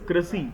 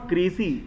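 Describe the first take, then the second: First: The vowel is reduced, like 'cruh-see'. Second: The vowel is full, like 'cray-see'. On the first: The speaker calls it right. "It is" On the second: The speaker calls it wrong. "It is not"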